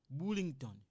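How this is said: It is said with a French accent.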